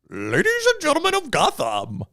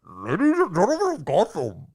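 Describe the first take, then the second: First: A Bane voice, said with the mouth uncovered. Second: A Bane voice, muffled behind a covered mouth.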